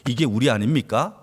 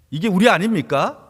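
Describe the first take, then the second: First: Said in the usual way. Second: 이게 우리 아닙니까 repeated louder, stress on 우리; emphatic repeat. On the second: Shown as a demonstration. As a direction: press 우리 harder the second time.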